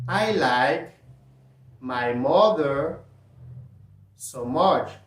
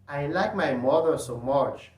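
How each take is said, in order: First: It is said slowly. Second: It is said at normal speed.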